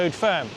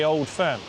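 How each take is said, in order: First: Old sounds like 'Oud', with no clear L. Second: Old is said with a clear L sound. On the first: The speaker calls it wrong. "not Oud. I'm from Somerset, we talk weird" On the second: The speaker calls it right. "Or the Old Firm"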